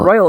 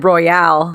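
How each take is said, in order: First: It is said as the ordinary word 'royal'. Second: It is said in the fancy 'royale' way.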